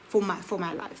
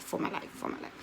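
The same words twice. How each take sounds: First: Said in the usual way. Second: Whispered repeat. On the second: Retold or imitated. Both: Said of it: "I'm just so scared".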